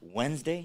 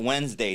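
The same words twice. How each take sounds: First: The voice rises at the end like a question. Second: The voice falls at the end like a statement. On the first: It sounds unsure, like a question. The speaker calls it wrong. "Why do you say that with a question mark?" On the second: It is stated as a fact. The speaker calls it right. "You got to be factual"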